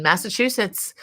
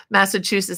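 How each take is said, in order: First: Said in the usual way. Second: Put-on half-hearted Massachusetts accent, higher and louder. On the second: Host tells viewers where she lived, mock Massachusetts accent. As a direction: have a light, amused go at a Massachusetts accent. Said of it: "best I can do for my Massachusetts accent".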